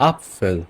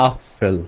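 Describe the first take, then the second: The two takes are said the same way.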